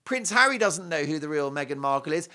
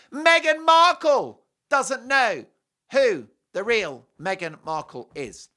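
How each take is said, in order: First: Said in the usual way. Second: MEGHAN MARKLE loud, high and drawn out, then easing down; emphatic punchline. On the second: Real, not acted. Commentator driving home who is clueless, emphatic and slow. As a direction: hammer "doesn't know" loudly and slowly, then space out the rest. Climax of a rhetorical repetition.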